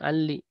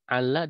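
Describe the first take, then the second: First: The final lam is said with an 'i' vowel. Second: The final lam is said with an 'a' vowel. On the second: "memfathahkan lam"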